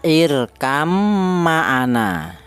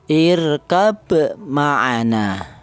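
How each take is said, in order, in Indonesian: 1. Kata pertama berakhir dengan bunyi m. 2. Kata pertama berakhir dengan bunyi b.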